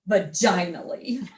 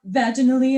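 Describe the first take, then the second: First: The ending rhymes with 'finally'. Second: The ending does not rhyme with 'finally'. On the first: It sounds like a long-awaited relief. The speaker calls it right. "Because it rhymes with finally" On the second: It sounds like a leisurely, pleasant event. The speaker calls it wrong. "it sounds like a lovely stroll through the park"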